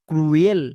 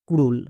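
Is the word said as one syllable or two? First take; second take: two; one. First: The word is split into two syllables, kroo-el. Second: The word is said as one syllable, krool. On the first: The speaker calls it wrong. "But এটা সম্পূর্ণ ভুল। এর উচ্চারণ ক্রুয়েল হবে না" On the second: The speaker calls it right. "এর উচ্চারণ ক্রুল হবে।"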